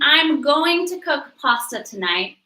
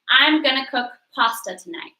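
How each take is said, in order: First: Going to is said fully as two words. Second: Going to is reduced to one word, gonna. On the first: "instead of saying" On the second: "they would say, ... an informal word that is gonna"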